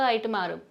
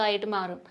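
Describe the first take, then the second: The two takes are said the same way.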